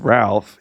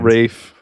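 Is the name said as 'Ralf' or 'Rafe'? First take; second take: Ralf; Rafe. First: The name is said with an L sound. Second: The name rhymes with safe, with no L. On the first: The speaker calls it wrong. "if you're around him and you refer to him as Ralph, he's like, sorry, I got to fine you" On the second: The speaker calls it right. "It's pronounced Rafe Fiennes"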